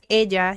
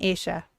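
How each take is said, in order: First: The double L sounds like a 'y'. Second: The double L sounds like 'sh'. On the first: "nosotros decimos ella" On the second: "ellos dicen ella ... La doble L ahí suena como shh"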